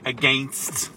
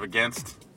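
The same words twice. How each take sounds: First: It is pronounced with a Canadian-sounding vowel. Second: It is pronounced with an American-sounding vowel. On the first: The speaker calls it wrong. "It's still lightly Canadian sounding. Lots of people saying against" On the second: The speaker calls it right. "instead of against"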